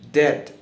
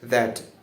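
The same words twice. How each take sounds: First: The th sound is replaced by another sound. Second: A clear th sound is pronounced. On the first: The speaker calls it wrong. "If I don't pronounce the th sound" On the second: The speaker calls it right. "when I pronounce the th sound correctly"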